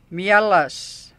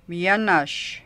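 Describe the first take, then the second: First: "Mielas" louder, with an s ending instead of sh; "Mielas", cute baby-talk form with l and final s. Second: Said in the usual way. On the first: Shown as a demonstration. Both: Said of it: "we change the sh sound to s".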